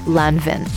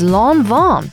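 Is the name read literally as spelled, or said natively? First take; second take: literally; natively. First: The name is read literally as it is spelled. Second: The name is said in its native pronunciation. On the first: The speaker calls it wrong. "not Lanvin" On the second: The speaker calls it right. "the way you pronounce it is Lanvin"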